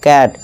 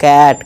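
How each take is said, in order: Both takes have the same delivery.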